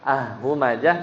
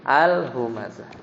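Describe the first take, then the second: First: "ah humazah" with the article's l dropped; wrong article reading. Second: "al humazah" with a distinct l before the h; clear article l. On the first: Teacher showing students the wrong reading, "ah humazah" without the l. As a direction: run an open "ah" into "humazah", no l. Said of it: "Ya kan bacanya bukan". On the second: Teacher correcting the reading for students, "al humazah" with a clear l. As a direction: sound the l of "al" fully, then "humazah". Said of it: "tapi al humazah". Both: Shown as a demonstration.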